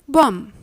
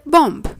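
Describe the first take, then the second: First: No b sound is heard at the end. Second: A b sound is heard at the end. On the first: The speaker calls it right. "The B is a silent letter" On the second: The speaker calls it wrong. "That's not exactly the expected reply from you"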